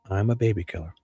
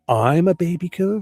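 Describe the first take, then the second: First: The voice falls at the end like a statement. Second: The voice rises at the end like a question. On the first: He is confessing. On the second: He is challenging the accusation.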